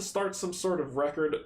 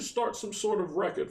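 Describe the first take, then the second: First: It is said in a plain reading voice. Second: It is said in a put-on character voice. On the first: The speaker calls it wrong. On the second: The speaker calls it right.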